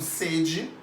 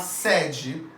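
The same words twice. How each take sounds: First: The first vowel is a closed E. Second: The first vowel is an open E. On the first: It means thirst. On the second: It means headquarters.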